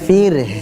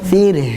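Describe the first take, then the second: No difference in how they are said.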